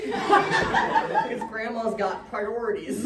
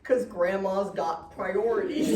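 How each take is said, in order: First: Laughing. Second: Said in the usual way. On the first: Real, not acted. Repeated punchline, laughing through it.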